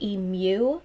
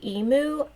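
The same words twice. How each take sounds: First: It is said with a 'y' sound before 'oo'. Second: It is said without a 'y' sound before 'oo'. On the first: This is the speaker's own way, learned abroad. "I say emu. ... I don't know why I stick away in there" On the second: This is how many Americans say it. "a lot of Americans say emu"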